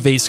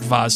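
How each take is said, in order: First: The word has the plain, everyday pronunciation. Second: The word has the fancier pronunciation. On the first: The speaker calls it right. "I'm a vase guy" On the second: The speaker calls it wrong. "I hate vase too"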